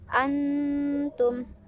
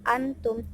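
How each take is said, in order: First: The n is held as a nasal hum. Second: The n is said plainly without a hum. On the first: The speaker calls it right. "Jadi dibaca dengung, tapi dibaca antum" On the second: The speaker calls it wrong. "tidak dibaca antum"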